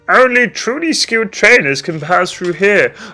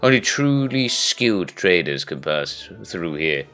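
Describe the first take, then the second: First: It is read in a silly voice. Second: It is read in a normal voice.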